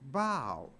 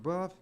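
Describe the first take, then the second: First: The word rhymes with cow. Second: The word rhymes with stuff. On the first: The speaker calls it right. "it's pronounced bow" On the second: The speaker calls it wrong. "it's not pronounced buff"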